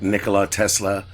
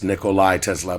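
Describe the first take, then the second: First: The first name ends with a plain 'la' sound. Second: The first name ends with a 'lie' sound. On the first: The speaker calls it wrong. "I know I mispronounced it" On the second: The speaker calls it right. "I went and corrected myself for you"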